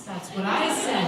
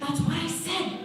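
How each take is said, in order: First: "That's what I said" slow and loud at usual pitch; emphatic insistence. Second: "That's what I said" thrown high, rising at the end; high-pitched insistence. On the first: Inmate answering a correction, "That's what I said" slow and emphatic. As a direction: lean slowly and loudly on "That's what I said". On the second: Inmate repeating herself, "That's what I said" high and rising. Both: Acted.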